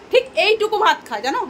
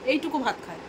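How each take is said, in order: First: High, loud exasperated emphasis on ঠিক; emphatic complaint. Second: Soft muttered echo of এইটুকু ভাত খায়; quiet repeat. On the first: Complaining daughter eats little. (উঁচু গলায় জোর দিয়ে নালিশ) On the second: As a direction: repeat it much softer, falling away. Repeats complaint as aside. (নিচু গলায় আবার বলা) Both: Real, not acted.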